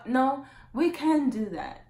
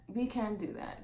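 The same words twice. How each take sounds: First: "we can do that" slow, high and loud; emphatic insistence. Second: Said in the usual way. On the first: Real, not acted. Vlogger correcting herself about the relationship, emphatic insistence. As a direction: punch "we can do that", drawn out.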